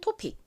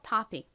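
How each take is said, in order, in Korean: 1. 첫 모음은 'oh' 소리처럼 납니다. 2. 첫 모음은 'ah' 소리처럼 납니다. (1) "한국식으로는 토픽" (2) "미국식 원어 발음으로는 오를 아 소리에 가깝게 읽어서"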